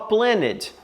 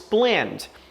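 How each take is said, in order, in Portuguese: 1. O final -ed é uma sílaba extra. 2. O N e o D se juntam. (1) "A gente não fala planned" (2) "nós falamos planned"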